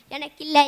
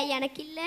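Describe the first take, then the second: First: Loud, despairing cry of not for me; loud wail. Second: Softer, deflated repeat; quiet despair. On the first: Poor poet wails to himself about the lost prize, loud. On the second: Poor poet sighs to himself about the lost prize, quietly. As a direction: let it sink in, quietly. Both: Acted. Lamenting the prize goes elsewhere.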